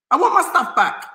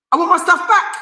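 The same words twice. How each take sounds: First: Want landed firmly, falling; firm stress on want. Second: High, insistent demand for his stuff back. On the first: Speaker repeating to thieves, firm falling demand. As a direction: press on want and let it drop. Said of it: "repeated demand, second take". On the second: Speaker to thieves, insistent raised demand. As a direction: push the word back up high. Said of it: "repeated demand, first take". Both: Real, not acted.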